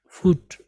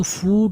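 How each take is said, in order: First: फुट with a short, light u; short vowel foot. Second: फूट with a long drawn-out oo, the wrong way; long vowel foot, wrong. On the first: Teacher showing students the right short फुट. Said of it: "हल्का फुट". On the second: Teacher showing students the wrong long फूट. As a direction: stretch the oo in फूट. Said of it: "फूट नहीं बल हल्का फुट". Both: Shown as a demonstration.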